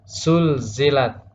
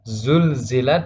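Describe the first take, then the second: First: The word begins with an s sound. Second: The word begins with a z sound. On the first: The speaker calls it wrong. "huruf za menjadi sin ... tidak boleh" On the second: The speaker calls it right. "huruf za"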